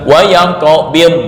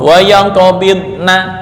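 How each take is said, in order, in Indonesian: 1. Kata itu berakhir dengan huruf d, huruf n dihilangkan. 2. Kata itu berakhir dengan vokal penuh na. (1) "bukan wa yaqbid. Lah, na kemana?" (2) "itu yang kurang tepat ya"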